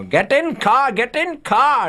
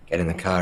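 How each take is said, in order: First: High-pitched mock shout of an order; high, insistent retold yell. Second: Said in the usual way. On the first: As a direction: imitate an excitable friend shouting orders, voice shooting up. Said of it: "B K shouting at Viggo".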